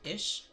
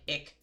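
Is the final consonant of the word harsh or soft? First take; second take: soft; harsh. First: The final consonant is a soft sh sound. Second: The final consonant is a harsh, throaty rasp. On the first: "they pronounce it kind of like I S H, ish" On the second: "not pronounced as harshly as some people say ich"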